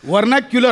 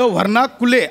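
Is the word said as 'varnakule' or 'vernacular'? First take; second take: vernacular; varnakule. First: The word sounds like 'ver-na-kyu-lar'. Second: The word sounds like 'var-na-ku-le'. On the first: The speaker calls it right. "वर्नॅक्युलर असं आहे" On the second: The speaker calls it wrong. "शब्द वर्णाकुले असा नाहीये"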